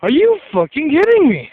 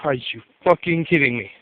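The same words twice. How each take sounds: First: High, loud, exploding in disbelief; sudden loud cry of disbelief at the cheating; outraged disbelief. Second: Low, slightly soft, fed-up disbelief; low, weary aside of disbelief; muttered disbelief. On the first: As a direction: blurt it out, shocked and furious. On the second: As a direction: grumble it to yourself, tired of the cheating. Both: Retold or imitated. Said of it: "And I'm like".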